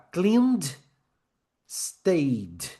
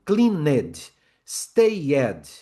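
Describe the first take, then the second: First: "cleaned, stayed" each in one syllable; "cleaned" and "stayed" without an "ed" syllable; correct pronunciation. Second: "cleaned, stayed" wrongly in two syllables, clean-ed, stay-ed; wrong pronunciation. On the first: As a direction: join the d straight onto "cleaned" and "stayed", no vowel. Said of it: "Olha a diferença". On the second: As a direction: add a full "ed" vowel to "cleaned" and "stayed". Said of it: "O errado". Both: Shown as a demonstration.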